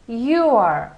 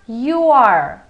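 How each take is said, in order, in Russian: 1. Слова сливаются в один короткий слог. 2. Слова сливаются в один короткий слог.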